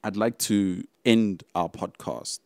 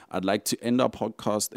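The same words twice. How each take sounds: First: Slow and louder, every word weighted; slow emphatic close. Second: Said in the usual way. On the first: Real, not acted. Host formally announcing the end of the podcast, slow and emphatic. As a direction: lean into end like a sign-off.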